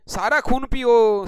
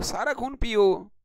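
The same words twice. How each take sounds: First: Louder, slower hammed-up wail of सारा खून पियो; mock lament. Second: Said in the usual way. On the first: Teacher joking that students drain his blood, loud mock wail.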